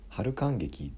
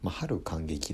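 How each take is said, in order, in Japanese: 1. 『sushi zanmai』のイントネーションだ。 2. 『haruten kangeki』のイントネーションっぽい。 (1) "寿司三昧のイントネーションで春感激ですかね" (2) "春感激だとなんか春天感激みたいな"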